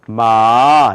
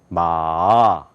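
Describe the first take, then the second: First: It is said with the second tone. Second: It is said with the third tone. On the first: It means hemp. "두 번째는 마 이렇게 발음해요" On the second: It means horse. "세 번째는 마"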